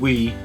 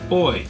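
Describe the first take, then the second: First: The word sounds like 'wee'. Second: The word sounds like 'oy'. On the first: The speaker calls it right. "the French pronunciation being we" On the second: The speaker calls it wrong. "and we said oi"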